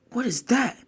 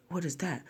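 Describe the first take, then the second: First: High rising shocked question; shocked higher question; startled. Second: Much softer falling question; soft awed question; stunned hush. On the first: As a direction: blurt it out in surprise. Naruto sees the monster. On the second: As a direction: murmur it in awe. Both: Acted.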